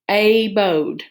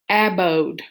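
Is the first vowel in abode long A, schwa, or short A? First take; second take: long A; short A. First: The first vowel is a long A sound. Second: The first vowel is a short A sound. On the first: "that open syllable when A says A" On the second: "I'm going to try it with a short one"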